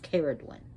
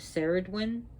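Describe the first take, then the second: First: The name begins with a K sound. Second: The name begins with an S sound. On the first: The speaker calls it right. "K, like in cat" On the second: The speaker calls it wrong. "they're pronouncing the C as a cell instead of K"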